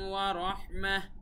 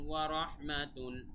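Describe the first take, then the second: First: The word ends with a soft 'h' sound. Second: The word ends with a full 'tun' sound. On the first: The reader stops at this point. "ওয়া রহমাতুন না বলে ... বলবো ওয়া রহমাহ বলে থেমে যাব" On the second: The reading continues without stopping. "তা দুই পেশতুন"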